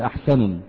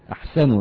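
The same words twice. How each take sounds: First: The word ends with an added n sound. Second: The word ends without an added n sound. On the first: The speaker calls it wrong. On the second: The speaker calls it right.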